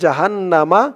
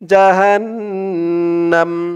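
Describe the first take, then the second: First: The word ends with an extra a vowel. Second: The word ends on the consonant m. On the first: The reader goes straight on to the next word. "আর না থামলে" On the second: The reader stops after this word. "এখানে থামলে উচ্চারণ করতে হবে"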